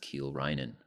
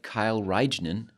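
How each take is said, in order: First: The first name sounds like 'keel'. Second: The first name sounds like 'Kyle'. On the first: The speaker calls it right. "but it's Kiel Reinen" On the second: The speaker calls it wrong. "Kind of looks like Kyle Reignen"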